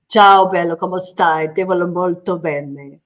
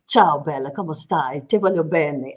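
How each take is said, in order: First: Louder, playful Italian accent, opening with a burst; Italian accent on request. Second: Lightly voiced Italian endearments, a touch lower; sweet-talking in Italian with a light Italian lilt; Italian phrases. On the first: Shown as a demonstration. Guest repeats her Italian on request, louder Italian accent. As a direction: perform the Italian line for the hosts, hamming the accent. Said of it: "I'm so sorry for my accent". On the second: Guest showing how Italians charm you, light Italian lilt. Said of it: "such a passionate accent".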